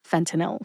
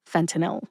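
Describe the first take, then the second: First: The word is said clearly with three syllables. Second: The word is said clearly with three syllables.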